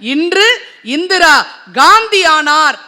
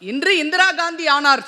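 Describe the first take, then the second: First: There is a pause after the second word. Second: The phrase is read straight through without a pause. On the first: Today Indira met the same fate as Gandhi. "என்று பிரித்திருக்கிறார்" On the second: Indira Gandhi became something today. "சேர்த்து வாசிச்சோம்னா அதனுடைய அர்த்தம் வேற"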